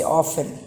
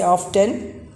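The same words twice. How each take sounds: First: OFTEN as "offen"; silent T. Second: OFTEN with its T spoken; sounded T. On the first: Teacher gives British and Indian English often, silent T. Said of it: "T is silent". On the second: Teacher allows the other form of often, T sounded. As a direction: say "often" as "off-ten". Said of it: "Even though we can say often". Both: Shown as a demonstration.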